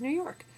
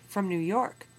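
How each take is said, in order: First: "New York" said higher, with an innocent rising tune; naive reply. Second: Said in the usual way. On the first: Retold or imitated. Teacher retelling Solomon's slip, "New York" said high and rising. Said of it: "he says".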